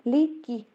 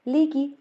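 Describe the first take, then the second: Both takes have the same delivery.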